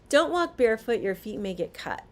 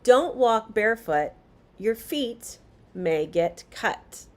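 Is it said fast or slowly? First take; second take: fast; slowly. First: It is said faster, less clearly. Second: It is said slowly and clearly.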